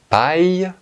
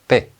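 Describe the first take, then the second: First: The final i sound is clearly heard. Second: The final i sound is not heard. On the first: The speaker calls it right. "Nous prononçons également le I, et cela fait paille" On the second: The speaker calls it wrong. "ce n'est pas paix"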